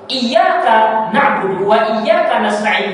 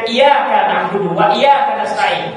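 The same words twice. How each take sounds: First: The y in iyyaka is held long, doubled. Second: The y in iyyaka is short, not doubled. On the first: The speaker calls it right. "dengan tasdid" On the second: The speaker calls it wrong. "tanpa tasdid dibaca dengan"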